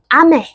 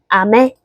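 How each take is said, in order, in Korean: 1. 음높이가 높은 데서 낮은 데로 떨어져요. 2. 음높이가 낮은 데서 높은 데로 올라가요. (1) "위에서 아래로 떨어지는 음정으로" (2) "아래에서 위로 음정이 올라가는 걸로"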